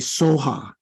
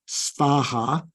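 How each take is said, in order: First: It is said without a v sound. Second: It is said with a v sound. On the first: This is how Tibetans say it. "the closest they come is to say soha" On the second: This is the original Sanskrit form. "it is probably better to say svaha"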